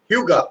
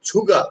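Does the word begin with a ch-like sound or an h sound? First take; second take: h sound; ch sound. First: The word begins with a clear h sound. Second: The word begins with a ch-like sound. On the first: This is how the recording says it. "ও কিন্তু উচ্চারণ করছে হিউগা" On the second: This is how people in Korea say it. "সবাই বলতো কি ছুগা"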